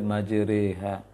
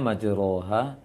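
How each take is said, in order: First: The vowel after r is an e sound. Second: The vowel after r is an open a sound. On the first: This is how the word is actually recited. "tetapi dibaca majreha" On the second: This is how the word is written. "tulisannya majroha"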